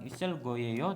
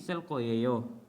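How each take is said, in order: First: The g is a plain, lax g sound. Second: The g becomes a tense kk sound. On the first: The speaker calls it wrong. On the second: The speaker calls it right.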